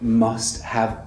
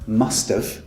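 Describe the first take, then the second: First: The word have is said in full. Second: The word have is contracted to a short v.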